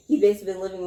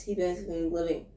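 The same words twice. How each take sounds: First: "basically been living" said more distinctly; clearer English. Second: "basically been living" run together and softer; muddled words. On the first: Correcting oneself for a listener, "basically been living" spoken clearly. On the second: Muddling a movie retelling, "basically been living" slurred. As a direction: stumble softly through "basically been living". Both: Real, not acted. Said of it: "my bad, let me speak English".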